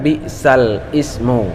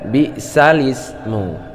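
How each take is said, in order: First: Ismu starts separately with its own glottal onset. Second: The lam runs straight into ismu with no break. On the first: The speaker calls it wrong. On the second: The speaker calls it right. "dipindah ke lam sebelum hamzah. Sehingga dibaca bi'salismu"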